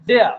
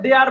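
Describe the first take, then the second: First: The word ends with no r sound. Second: The word ends with an r sound. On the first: The speaker calls it right. "শব্দটা দেয়া" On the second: The speaker calls it wrong. "আমরা বলি না দেয়ার বলি"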